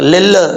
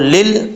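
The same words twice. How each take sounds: First: The final L is released with an echoing bounce. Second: The final L is held without any release bounce. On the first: The speaker calls it wrong. "ये जो आवाज़ आ रही है ना ये कलकला हो रहा है" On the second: The speaker calls it right. "लाम के मखरज में ज़ुबान जम जाए"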